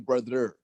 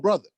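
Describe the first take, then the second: First: The final 'er' sound is clearly pronounced. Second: The final 'er' sound is dropped. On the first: "We don't we don't say brother" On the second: "there's no there's no er"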